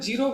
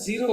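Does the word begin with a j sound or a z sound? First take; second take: j sound; z sound. First: The word begins with a j sound. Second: The word begins with a z sound. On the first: The speaker calls it wrong. "जैसे मैं जीरो बोलता हूँ" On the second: The speaker calls it right. "जीरो होता है"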